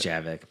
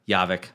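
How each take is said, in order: First: The name begins with a J sound. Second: The name begins with a Y sound. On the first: "I know it's Javik" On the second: "J pronounced like a Y"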